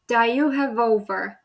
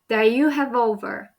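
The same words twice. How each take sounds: First: The words run together into one unit. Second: The same.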